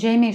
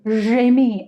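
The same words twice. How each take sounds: First: The name is said with an English accent. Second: The name is said with a French accent. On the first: The speaker calls it wrong. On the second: The speaker calls it right.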